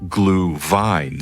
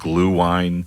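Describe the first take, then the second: First: The second part begins with a V sound. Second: The second part begins with a W sound. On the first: It follows the original German pronunciation. "if you're going to go full Germanic pronunciation, the W's a V" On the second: It follows an English reading of the spelling. "or you could just call it glue wine, which sounds weird"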